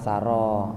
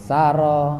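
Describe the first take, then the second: First: The second syllable has the long vowel. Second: The first syllable has the long vowel. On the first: A journey made at night. "saro rohnya yang panjang" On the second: A journey in general. "sanya dibaca panjang"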